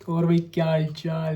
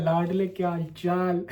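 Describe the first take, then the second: First: Buddy greeting. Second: Affectionate greeting. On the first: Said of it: "तुम्हें ये समझ आता है". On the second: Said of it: "तुम्हें हिंदी समझ आती है". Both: Shown as a demonstration.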